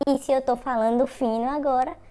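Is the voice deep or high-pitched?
high-pitched. The voice is high and thin.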